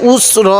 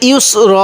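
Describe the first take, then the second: First: The word starts with a bare u vowel. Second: The word starts with a y sound before u. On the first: The speaker calls it wrong. "আমরা অনেকে এখানে একটা অনেক বড় ভুল করি" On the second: The speaker calls it right. "এখানে ইউস র এরকম করে পড়ব"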